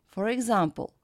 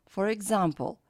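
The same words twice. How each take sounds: The two takes are said the same way.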